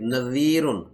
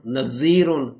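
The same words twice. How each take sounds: First: The middle consonant is a soft th sound. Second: The middle consonant is a buzzing z sound. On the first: The speaker calls it right. "इसको जाल पढ़ना है नरम करके" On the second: The speaker calls it wrong. "तो फिर ये जा हो जाएगा"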